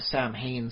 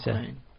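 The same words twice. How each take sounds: First: The middle consonant is said as an M. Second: The middle consonant is said as a W. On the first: The speaker calls it wrong. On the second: The speaker calls it right.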